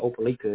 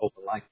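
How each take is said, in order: First: The name is said the Florida way. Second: The name is said the Alabama way. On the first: This is the Florida town. "There's an Opelika in Florida. They call it Opelika" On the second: This is the Alabama town. "And then there's one in Alabama. They call it Opelika"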